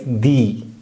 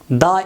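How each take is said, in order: First: The word is said in its full, strong form. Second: The word is said in its reduced, weak form. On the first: The following noun is emphasized. "This is the strong form" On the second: The following noun is not emphasized. "The is weak form"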